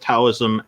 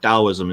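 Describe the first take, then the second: First: The word begins with a T sound. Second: The word begins with a D sound. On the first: The speaker calls it wrong. "most people say with a T" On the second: The speaker calls it right. "Taoism is the correct pronunciation with a D instead of a T"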